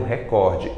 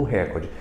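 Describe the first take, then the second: First: Recorde with stress on COR; stress on middle syllable. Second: Recorde mispronounced with stress on RE; stress on first syllable. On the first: Teacher using the word correctly in a headline, stress on COR in recorde. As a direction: say re-COR-de, COR strongest. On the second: Teacher rejecting the wrong form, stress on RE in recorde. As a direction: say RÉ-cor-de, RE strongest. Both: Shown as a demonstration. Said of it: "e não um recorde".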